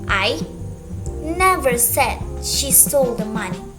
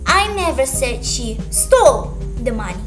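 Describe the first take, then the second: First: The word 'I' carries the extra stress. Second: The word 'stole' carries the extra stress. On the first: Someone else said it. "Someone else said it" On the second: Maybe she just borrowed it. "Maybe she just borrowed it"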